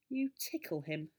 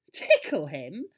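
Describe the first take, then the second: First: Said in the usual way. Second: Loud, astonished echo with a rising end; amazed, swooping question; incredulous question. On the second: A narrator's reading. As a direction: repeat it in utter disbelief. Boy astonished at the doctor's answer.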